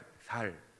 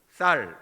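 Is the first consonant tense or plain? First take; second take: plain; tense. First: The first s sound is plain and soft. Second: The first s sound is tense and strong. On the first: This is how Gyeongsang dialect speakers say it. "된 시오 소리가 안 나옵니다" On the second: This is the standard pronunciation the dialect speakers cannot produce. "경상도 분들이 어, 쌀 이거 아니에요"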